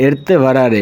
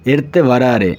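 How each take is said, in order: Both takes have the same delivery.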